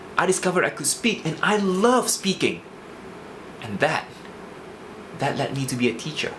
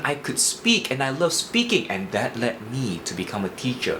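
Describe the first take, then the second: First: It pauses before shifting to the lower tone. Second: It drops to a low tone suddenly, without pausing. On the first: The speaker calls it right. "a simple pause will make it better" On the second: The speaker calls it wrong. "the shift there was a little bit too sudden"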